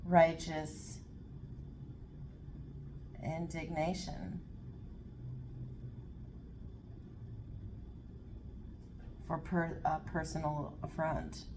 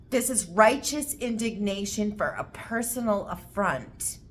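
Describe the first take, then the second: First: Righteous indignation spoken slowly and trailing softer, word by word; slow dictation. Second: Righteous indignation stressed hard, said with full force; emphatic statement. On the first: Reader writing the phrase down, slow dictating. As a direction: say it as you write it down. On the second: Tarot reader pins down the reading, emphatic. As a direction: land it like a verdict. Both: Real, not acted. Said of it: "I have to write that down".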